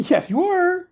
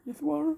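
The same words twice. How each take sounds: First: Cooing pet talk. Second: Softer, tender echo to the cat; soft pet talk. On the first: Owner cooing to the cat, high and bright. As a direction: lift it up high like praising a kitten. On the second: Owner murmuring softly to the cat, tender and quiet. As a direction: drop the volume and murmur it fondly. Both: Real, not acted.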